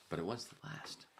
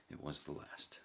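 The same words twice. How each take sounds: First: Higher, pointed declaration; "last" said with a pointed rise; emphatic. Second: Softer, half-whispered repeat; muttered echo. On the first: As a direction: land it like a punchline. Retelling his own past, repeats line. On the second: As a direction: mutter it again to yourself. Muttered repeat of previous line. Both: Real, not acted.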